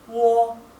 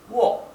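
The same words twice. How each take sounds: First: The pitch stays high and level throughout. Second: The pitch falls from start to end. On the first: "si fuera el tono alto, ... es wo" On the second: "Si fuera el tono descendente sería wo"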